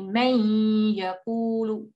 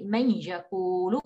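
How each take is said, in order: First: "man yaqulu" with the n of "man" held long and hummed through the nose; held nasal ghunna on man. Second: Said in the usual way. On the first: Shown as a demonstration. Teacher showing students the held ghunna, slow and nasal. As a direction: stretch "man" into a long humming ghunna, slowly. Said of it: "we hold it". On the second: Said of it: "we don't just say".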